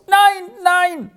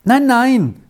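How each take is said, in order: First: Very high-pitched wailing refusal; moaning. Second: Higher-pitched, mildly soothing no-no; raised pitch, meant to reassure; reassuring.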